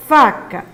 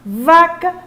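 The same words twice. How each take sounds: First: "faca" with a voiceless F, set against vaca; "faca" as second of a contrasting pair; clear F sound. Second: "Vaca" with a voiced V, set against faca; "Vaca" as first of a contrasting pair; clear V sound. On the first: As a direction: finish the contrast on a distinct F in "faca". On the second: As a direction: pitch "Vaca" up, crisp voiced V. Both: Shown as a demonstration. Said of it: "os sons parecidos têm que ser bem".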